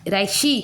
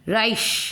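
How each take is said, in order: First: The word ends with an added 'ee' vowel. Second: The word ends on the 's' consonant. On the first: The speaker calls it wrong. "राइशी हो रहा है क्या, नहीं हो रहा है" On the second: The speaker calls it right. "ई omit हो रहा है"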